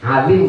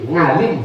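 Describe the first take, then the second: First: The word begins with a throat sound. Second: The word begins with an ng sound.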